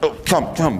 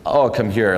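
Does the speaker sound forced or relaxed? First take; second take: forced; relaxed. First: It sounds forced and hurried. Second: It sounds relaxed and unhurried.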